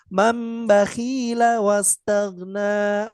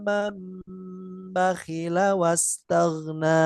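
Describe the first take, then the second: First: The vowel after kh is drawn out long. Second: The vowel after kh is kept short. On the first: The speaker calls it wrong. "tidak dibaca" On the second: The speaker calls it right. "kho-nya tidak dipanjangkan"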